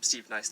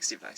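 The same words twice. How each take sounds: First: The name is said at a normal speed. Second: The name is said quickly, running together.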